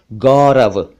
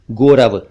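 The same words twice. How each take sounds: First: "गौरव" with open au; correct au vowel. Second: "गौरव" mispronounced "gorav", closed o; wrong o vowel. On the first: Shown as a demonstration. Teacher gives correct name, au sound. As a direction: say "गौरव" as "gaw-rav". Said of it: "सही उच्चारण है गौरव". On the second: Retold or imitated. Teacher imitates wrong name, o sound. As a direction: say "गौरव" as "goh-rav". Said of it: "वो गलत है".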